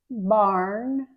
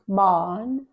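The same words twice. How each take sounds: First: The R is pronounced. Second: The R is silent. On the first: "We always pronounce the R as er" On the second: "You don't even hear the er in British English"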